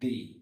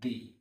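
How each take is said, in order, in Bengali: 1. স্বরধ্বনিটি একটি দীর্ঘ 'ee' ধ্বনি। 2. স্বরধ্বনিটি একটি দীর্ঘ 'ee' ধ্বনি।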